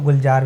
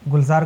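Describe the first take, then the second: First: The middle consonant is a j sound. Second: The middle consonant is a z sound. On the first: "अगर आपने ज़ का नुक्ता हटा लिया" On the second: "ज़ार का मतलब होता है गार्डन"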